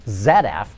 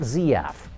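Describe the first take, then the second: First: The letter Z is pronounced 'zed'. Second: The letter Z is pronounced 'zee'. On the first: This is how the industry says the name. The speaker calls it right. "Just about everyone in the industry pronounces it Z F" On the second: This is not how the industry says the name. The speaker calls it wrong. "not Z F"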